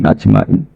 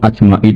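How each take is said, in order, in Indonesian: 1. Kata itu diucapkan dengan energi yang besar. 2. Kata itu diucapkan dengan datar, tanpa energi. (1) "dengan energi yang luar biasa" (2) "Bukan monoton"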